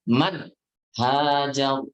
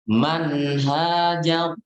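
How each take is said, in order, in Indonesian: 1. Bunyi n terputus tiba-tiba. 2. Bunyi n terus dibunyikan tanpa putus.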